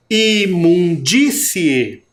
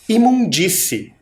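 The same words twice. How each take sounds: First: "Imundície" drawn out very slowly, DÍ stressed; strong stressed syllable. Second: Said in the usual way. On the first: Shown as a demonstration. Teacher showing the stronger accented sound, slow stressed "Imundície". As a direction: stretch "Imundície" syllable by syllable, pushing the DÍ. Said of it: "Não é um som mais forte". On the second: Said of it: "Observem aqui nessa última palavrinha".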